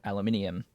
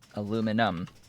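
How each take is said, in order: First: It is said with an extra vowel before the ending. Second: It is said without the extra vowel before the ending. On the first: "not aluminium" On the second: "There is no extra I at the end of that word uh, in the U S spelling and pronunciation. It is aluminum"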